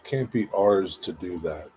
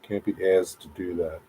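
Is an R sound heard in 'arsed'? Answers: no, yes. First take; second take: yes; no. First: The R sound in 'arsed' is pronounced. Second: The R sound in 'arsed' is dropped. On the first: "Is that how you pronounce that? Arsed?" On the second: "do you not pronounce the R and it's just ased?"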